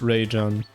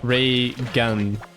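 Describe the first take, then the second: First: The middle consonant is a soft j sound. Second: The middle consonant is a hard g sound. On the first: "But just Ray Jen" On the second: "Like with the... the G of gar garçon"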